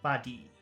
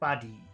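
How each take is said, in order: First: The first sound is short, the second long. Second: The same.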